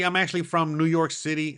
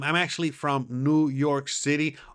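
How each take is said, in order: First: It is said at normal speed. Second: It is said more slowly.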